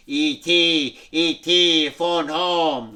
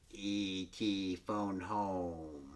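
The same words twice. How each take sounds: First: A touch louder, lightly voiced alien. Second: Low, soft croaking alien voice. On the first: ET reviving, speaking to Elliot in a light alien voice. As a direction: call out gently as the alien. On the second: Retold or imitated. ET croaking to Gertie, low soft alien croak.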